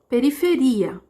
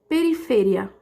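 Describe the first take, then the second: First: The stress falls on the syllable ri. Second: The stress falls on a different syllable. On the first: This is the Portuguese pronunciation. "A sílaba mais forte é o ri" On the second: This is the Spanish pronunciation. "Eu mudei só a sílaba mais forte"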